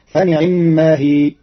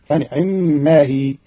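First: Said in the usual way. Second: فنعما with the ayn vowel barely touched, slow; stolen kasra. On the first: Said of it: "quoted verse before the variant". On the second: Shown as a demonstration. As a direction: say فنعما with a hidden, snatched i after the ayn. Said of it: "فتصير هكذا".

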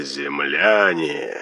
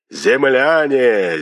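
First: Eldritch horror. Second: Very slow, drawn-out echoing call; eldritch horror. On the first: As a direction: let it sink away into the distance. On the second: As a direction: stretch it like a voice from the sky. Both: A narrator's reading. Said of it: "потусторонний голос".

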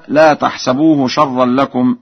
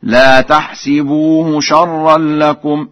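First: Said in the usual way. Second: Slow higher chant, تحسبوه said tahsibuhu; kasra on sin. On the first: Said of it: "قرأ ورش بكسر السين". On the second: Shown as a demonstration. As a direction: recite تحسبوه with -si-. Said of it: "بكسر السين في الفعلين معا". (ترتيل بكسر السين في تحسبوه)

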